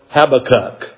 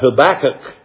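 First: It is said in a British pronunciation. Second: It is said in an American pronunciation. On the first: "or as the British people call it" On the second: "That's how we say it here in American English"

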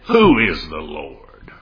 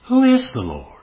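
First: It sounds like a defiant, dismissive challenge. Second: It sounds like a sincere, open question. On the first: The asker rejects any duty to obey. "Same words, but a whole different meaning" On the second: The asker genuinely wants to know in order to obey. "This might seem to be a sincere question. If asked this way"

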